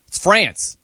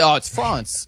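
First: France said with the "a" of "dance"; American pronunciation. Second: France said as "Frahnce", lower; affected French-style vowel. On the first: Acted. Arguing we're in America, American short-a France. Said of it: "we're here in America". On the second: Retold or imitated. Host mocking what nobody says, affected "Frahnce". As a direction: put a long "ah" in France, mockingly. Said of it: "You don't say".

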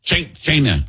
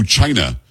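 First: "China" pitched up in imitation of the president; attempted presidential "China", higher than usual; president's "China". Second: Said in the usual way. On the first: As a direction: mimic how the president says "China". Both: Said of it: "How, how does the president say it".

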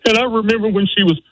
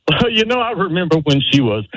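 First: Choked-up whimper. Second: High, laughing voice that shakes off the tears. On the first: Caller showing the father's tearful speech, whimpering. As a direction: voice cracking high as tears rise. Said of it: "if you find that whimper coming on". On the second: Caller showing how to laugh through the speech. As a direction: turn the crack into a chuckle. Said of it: "you turn that into a laugh". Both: Shown as a demonstration.

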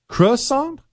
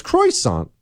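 First: "Croissant" with a reduced first syllable, "cruh-sahn", as a high question; corrected pronunciation. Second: "croissant" said "croy-sahn", with an oy in the first syllable; insisted mispronunciation. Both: Shown as a demonstration. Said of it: "It is not. It's croissant".

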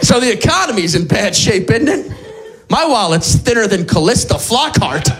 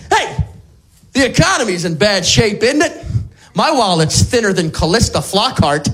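First: Same joke retold as if new, lightly played; mock forgetful repeat. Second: Lightly played confused old-timer telling a joke; mock forgetful joke teller. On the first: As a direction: repeat it as if you forgot you told it. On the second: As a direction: tell the joke as if for the first time. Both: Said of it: "my next joke has Alzheimer's disease".

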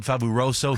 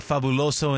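First: "Fabuloso" with the L turned to R, mock Chinese accent. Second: Said in the usual way. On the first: Correcting the name at a Chinese restaurant, "Fabuloso" said as "Faburoso" in a mock accent. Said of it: "Why can't I say that?". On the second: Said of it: "No, it's called Fabuloso here".

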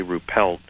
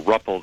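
First: Ruppelt said "roo-PELT"; alternative pronunciation. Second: Ruppelt said "RUP-uld"; alternative pronunciation. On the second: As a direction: say Ruppelt with a short "uh", weak ending. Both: Real, not acted. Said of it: "not sure how it's pronounced".

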